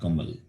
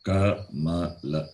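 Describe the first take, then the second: First: The word ends without its final vowel. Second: The word ends with its final vowel. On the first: The speaker calls it wrong. "not Kamal" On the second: The speaker calls it right. "It is la"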